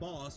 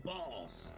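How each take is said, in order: First: It is said in a plain normal voice. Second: It is said in a put-on character voice. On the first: It is the ordinary way of saying it. "Not boss" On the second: It imitates how the enemies say it. "the way the Landbreakers say boss"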